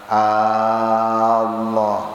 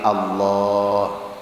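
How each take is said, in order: First: The first vowel is drawn out long. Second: The first vowel is kept short. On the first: The speaker calls it wrong. "Jangan sampai alif Allah terpanjangkan" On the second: The speaker calls it right. "Tapi Allah"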